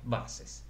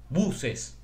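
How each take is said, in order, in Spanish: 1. La palabra se dice con sonidos ingleses. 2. La palabra se dice con sonidos españoles.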